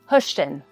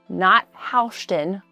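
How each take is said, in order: First: The first syllable rhymes with push. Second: The first syllable does not rhyme with push. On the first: The speaker calls it right. "Think hush, like push" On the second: The speaker calls it wrong.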